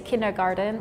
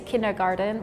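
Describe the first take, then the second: First: It is said the English way, with a D sound. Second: The same.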